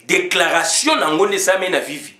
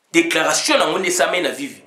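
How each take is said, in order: Both takes have the same delivery.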